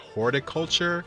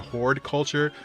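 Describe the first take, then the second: First: It sounds exactly like the gardening word horticulture. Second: The first part sounds like the word horde. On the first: The speaker calls it right. "it's a play on the word horticulture" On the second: The speaker calls it wrong. "it just feels weird to say horde culture"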